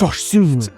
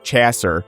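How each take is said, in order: First: The name is said with a French pronunciation. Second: The name is said with an English pronunciation. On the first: The name is being corrected. The speaker calls it right. "no, it's" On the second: The name is being said incorrectly. The speaker calls it wrong. "they keep calling him, like"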